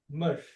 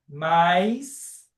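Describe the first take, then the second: First: A short closed vowel ends in a sh sound. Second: The vowel glides into an i sound. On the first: "a gente ouve essa pronúncia, mush" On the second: "que nós aqui no Brasil falamos mais"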